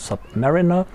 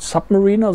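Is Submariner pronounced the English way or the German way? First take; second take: English; German. First: The word is pronounced the English way. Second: The word is pronounced the German way. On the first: The speaker calls it right. "im Englischen Submariner ausgesprochen wird" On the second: The speaker calls it wrong. "Es ist nicht Submariner"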